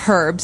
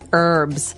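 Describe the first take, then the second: First: The H at the start is pronounced. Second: The H at the start is silent.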